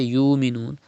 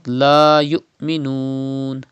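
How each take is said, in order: First: "yu'minun" run together with a long "yu"; mistaken missing pause. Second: "la yu'minun" with a clear break after "yu"; sudden Hamza stop. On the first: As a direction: glide through "yu'minun" without a catch. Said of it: "Do not say yu'minun". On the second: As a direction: cut "yu" off sharply in "la yu'minun". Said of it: "pronounced with sudden pause". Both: Shown as a demonstration.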